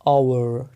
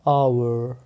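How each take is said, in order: No difference in how they are said.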